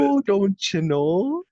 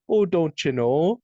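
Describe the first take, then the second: First: Slow, high, louder mock Canadian accent. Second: Slow, high, louder mock Canadian accent; slow it down like teasing a Canadian. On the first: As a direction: drawl it out as a teasing Canadian. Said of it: "That's what they would say". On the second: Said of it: "the first Canadian that they played with".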